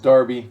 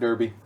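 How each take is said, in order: First: The first vowel sounds like the vowel in 'car'. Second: The first vowel sounds like the vowel in 'her'. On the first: The speaker calls it right. "it's Darby" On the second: The speaker calls it wrong. "not Derby"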